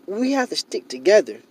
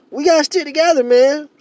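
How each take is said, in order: First: Said in the usual way. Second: Higher and louder, pleading with feeling; passionate raised plea. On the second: Real, not acted. Vlogger pleads with his community to unite, voice raised. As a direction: urge the listener hard to stick together.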